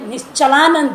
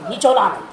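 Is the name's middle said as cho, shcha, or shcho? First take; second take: shcha; cho. First: The name has sh, with an a vowel. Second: The name has no sh, with an o vowel. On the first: The speaker calls it right. "निश्चलानंद है" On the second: The speaker calls it wrong. "निचोलानंद क्या होता है?"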